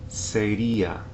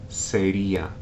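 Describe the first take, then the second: The two takes are said the same way.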